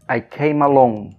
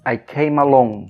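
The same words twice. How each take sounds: First: The three words are linked together smoothly. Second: The same.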